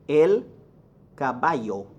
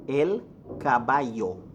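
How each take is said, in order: No difference in how they are said.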